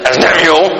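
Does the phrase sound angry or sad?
angry. It is said in an angry, harsh tone. The anger is being let out. The speaker calls it wrong.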